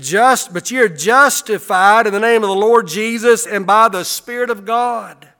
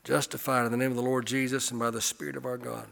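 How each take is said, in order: First: Loud, high preaching of the verse; preached scripture. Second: Said in the usual way. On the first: Acted. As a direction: proclaim the verse to the room. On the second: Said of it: "verse read again quietly".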